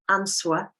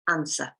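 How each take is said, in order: First: A W sound is pronounced in the middle. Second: No W sound is pronounced in the middle. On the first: The speaker calls it wrong. "It's not answer" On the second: The speaker calls it right. "we do not pronounce it in answer"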